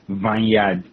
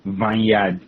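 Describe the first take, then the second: First: It is said with a Nigerian pronunciation. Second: The same.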